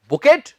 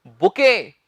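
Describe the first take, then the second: First: "बुकेट" with a final t; questioning mock "बुकेट"; wrong "bouquet". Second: "बुके" ending in ke, no t; teacher's correct "बुके"; correct "bouquet". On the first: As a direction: say "बुकेट" as the mistake, t sounded. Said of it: "बिल्कुल भी नहीं". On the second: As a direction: model "बुके" cleanly, silent t. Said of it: "सही उच्चारण क्या है". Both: Shown as a demonstration.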